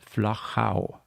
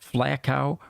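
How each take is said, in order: First: The name is said with a German pronunciation. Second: The name is said with an anglicized pronunciation. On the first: The speaker calls it right. "the German and the Austrian pronunciation. It's Flachau" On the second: The speaker calls it wrong. "or anything like that"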